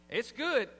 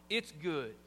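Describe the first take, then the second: First: Said in the usual way. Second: "It's good" said lower and sincere; sincere "It's good", falling low; right tone. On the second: Shown as a demonstration. Preacher shows husbands how to praise food sincerely. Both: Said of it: "change the tone".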